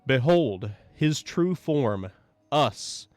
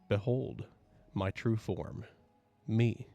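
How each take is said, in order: First: It is said a little louder. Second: It is said softly.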